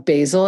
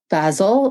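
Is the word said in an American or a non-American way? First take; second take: American; non-American. First: It is said the American way. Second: It is said in a non-American way.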